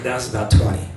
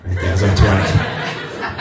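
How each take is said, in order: First: Said in the usual way. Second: A lazy teasing trainer voice; low, slow mock trainer. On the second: Trainer mocking a client's tiny calorie burn, low and slow. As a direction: drop way down and drag it out, laughing.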